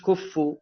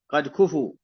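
First: "كفوا" as kuf-fu, with the f doubled; teacher mimics the mistaken shadda in "كفوا"; wrong doubled consonant. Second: "كفوا" as ku-fu, one light f; undoubled consonant. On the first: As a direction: hold the f double in "كفوا" to show the error. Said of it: "مش كفوا". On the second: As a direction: say "كفوا" without doubling the f. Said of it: "لا تشدد الفاء". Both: Shown as a demonstration.

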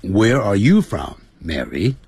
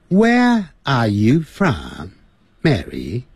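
First: American English with R's sounded; American accent. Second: Slow British English, R's dropped; British accent. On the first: Teacher demonstrates the American question to Mary, American accent. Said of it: "在美式英语就是". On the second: Teacher demonstrates the British question to Mary, British accent. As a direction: ask it in a British accent, drawn out. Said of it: "在英式英语". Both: Shown as a demonstration.

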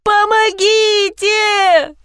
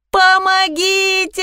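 First: Very high, slow wailing plea; desperate cry for help. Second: High drawn-out cry for help; shouting for help. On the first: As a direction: stretch it out, pleading, high. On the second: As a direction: call out, high and slow. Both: A narrator's reading. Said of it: "закричала я".

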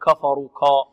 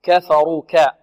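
First: كفروا with a thickened, backed k and a; كفروا said with emphatic "ko" instead of light "ka"; wrong heavy kaf. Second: كفروا with a thin, front k and a; كفروا with clear light "ka" and "fa", heavy r; light kaf. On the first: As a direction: make كا dark and heavy. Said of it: "لا نقول كفروا كا". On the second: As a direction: keep كا light, not thickened. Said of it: "الكاف مرققة والفاء مرققة". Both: Shown as a demonstration.

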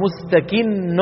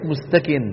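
First: مستكن with a doubled, held ن; correct pronunciation. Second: مستكن with a plain, unstressed ن; the common mistake, مستكن with no shadda; wrong pronunciation. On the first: Teacher giving the correct مستكن with a doubled ن. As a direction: stress the shadda on the ن of مستكن. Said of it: "هذه بتشديد النون". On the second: Teacher imitating the students' mistake with مستكن. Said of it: "ليس كما نسمع من بعض إخواننا يقولون". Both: Shown as a demonstration.

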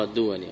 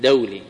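First: الدولي said softly as "ad-du-wa-li"; the faulty "duwali" in الدولي, from the plural; mistaken nisba pronunciation. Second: دولي said "daw-li", from dawla; the proper "dawli" for دولي; correct nisba pronunciation. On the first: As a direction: say الدولي with short u, then wa. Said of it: "غلط". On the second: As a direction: say دولي in two syllables with an aw diphthong. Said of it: "لأن نسبته إلى دولة". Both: Shown as a demonstration.

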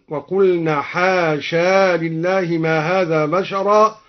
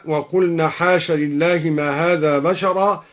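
First: Slow chant, حاشا ending in a long aa before لله; alif kept in joining. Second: Said in the usual way. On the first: Shown as a demonstration. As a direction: recite slowly, holding the final alif of حاشا. (تلاوة مرتلة بإثبات ألف حاشا وصلا) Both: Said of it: "أثبت الألف وصلا".

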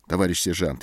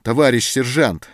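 First: Said in the usual way. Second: Loud, high plea of «Товарищ сержант!»; imploring cry. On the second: A narrator's reading. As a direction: call out «Товарищ сержант!» begging. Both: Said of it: "взмолился Антон".

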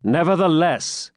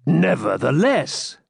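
First: Firm, higher, authoritative; commanding tone. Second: Slow, drawn-out, higher sullen refusal; a stubborn, put-out swineherd; offended swineherd. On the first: Pilgrim overruling the swineherd, commanding. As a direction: lay down the word like an order. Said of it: "said the pilgrim in a commanding tone". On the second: Swineherd refusing the pilgrim, slow and sullen. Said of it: "offended at the familiar and commanding tone". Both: A narrator's reading.

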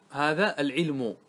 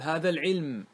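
First: Slow العلم ending in -u, "al-'ilmu"; full final damma. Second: العلم closed on m, "al-'ilm"; pausal sukun. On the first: Teacher giving students the voweled example, العلم slowly as "al-'ilmu". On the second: Teacher showing students how to pause, العلم as "al-'ilm". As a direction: stop on the m of العلم with no vowel. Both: Shown as a demonstration. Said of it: "قف على العلم".

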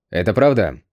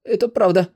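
First: Said in the usual way. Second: High, frightened confirmation; timid, high-pitched admission; trembling voice. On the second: A narrator's reading. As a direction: answer trembling under a merciless stare. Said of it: "сказал дрожащим голосом".

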